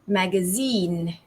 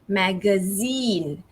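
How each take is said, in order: First: The stress is on the third syllable. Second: The stress is on the third syllable.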